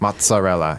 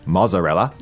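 First: The double z is said with a t sound. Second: The double z is said as a z sound. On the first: The speaker calls it right. "it's with a T sound" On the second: The speaker calls it wrong. "It's not mozzarella"

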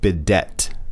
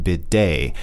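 First: The final T sound is pronounced. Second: The final T sound is silent. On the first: The speaker calls it wrong. "It looks like bidet. But no" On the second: The speaker calls it right. "it has a silent T because it's French"

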